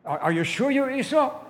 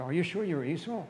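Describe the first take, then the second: First: High, loud, suspicious question; insistent questioning. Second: Said in the usual way. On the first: Acted. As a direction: press the doubt loudly and insistently. Father repeats question, more insistently.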